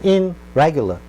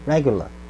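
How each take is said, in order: First: The prefix keeps an n sound before r. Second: The prefix blends into the r sound. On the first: The speaker calls it wrong. "힘들죠" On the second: The speaker calls it right. "훨씬 편하죠"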